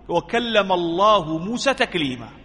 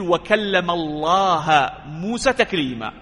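First: The word Allah ends in a 'u' vowel. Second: The word Allah ends in an 'a' vowel. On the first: The speaker calls it right. "لفظ الجلالة مرفوع" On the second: The speaker calls it wrong. "ويحرف"

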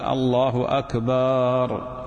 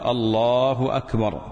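First: The vowel after the b sound is lengthened. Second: The vowel after the b sound is short. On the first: The speaker calls it wrong. "مد باء أكبر" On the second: The speaker calls it right. "الحذف وعدم التمطيط"

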